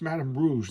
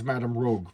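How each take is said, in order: First: The last word ends with a soft zh sound. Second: The last word ends with a hard g sound. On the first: The speaker calls it right. "Her name is Madame Rouge, like Madame Red" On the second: The speaker calls it wrong. "For years, I thought it was Madame Rogue"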